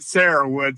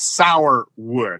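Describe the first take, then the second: First: It is said in the local form, "Sarahwood." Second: It is said as spelled, like "sour wood." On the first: This is how local people say the name. "they all pronounced it Sarahwood" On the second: This is how the name is written. "if you're looking at it on paper, it's sour wood"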